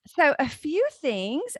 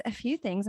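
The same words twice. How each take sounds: First: Slow sing-song opener. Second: Said in the usual way. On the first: Shown as a demonstration.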